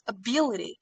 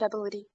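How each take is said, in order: First: The second syllable is stressed. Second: The second syllable is not stressed. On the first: The speaker calls it right. "So the stress should go on the second syllable" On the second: The speaker calls it wrong. "Maybe you said ability"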